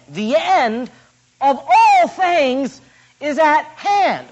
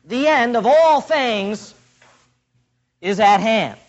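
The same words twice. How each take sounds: First: High, slow and ringing on all things; dramatic emphasis. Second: Slow, weighty reading of all; solemn quote. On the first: Preacher repeating the verse to stress it, slow and ringing. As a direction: stretch out of all things, then at hand. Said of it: "What an incredible statement". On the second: Preacher quoting verse seven to the church, weighty. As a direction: let all hang, then land at hand. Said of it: "Look again at the beginning of verse seven". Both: Acted.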